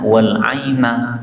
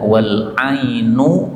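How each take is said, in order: First: The last word ends with an 'a' vowel. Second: The last word ends with a 'u' vowel. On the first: This is the usual reading. "Biasanya wal aina di fathah" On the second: This is the reading used here. "di sini dibaca wal ainu di dhammah"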